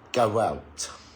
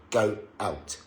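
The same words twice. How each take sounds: First: The words glide together with a w sound. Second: The words are broken apart with no linking sound. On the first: "speak naturally and say go out quickly" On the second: "staccato, broken, okay, if I break it"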